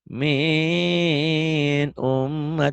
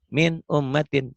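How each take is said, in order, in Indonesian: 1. Frasa itu disentak dengan tekanan berlebihan. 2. Frasa itu dibaca jelas tanpa tekanan tambahan. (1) "lebay ... Nggak boleh" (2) "Jelas. Dibacanya jelas tanpa ditahan"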